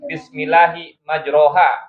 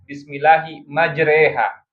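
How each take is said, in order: First: The vowel after majr sounds like 'o'. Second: The vowel after majr sounds like 'e'. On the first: It follows the written spelling. "tulisannya majro" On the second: It follows the Hafs reading with imalah. "dalam riwayat Hafs dibacanya imalah"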